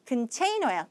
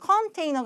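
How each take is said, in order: First: The first vowel is weak and reduced. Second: The first vowel is full and clear. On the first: The speaker calls it right. "큰이겠죠" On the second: The speaker calls it wrong. "컨테이너가 아니라"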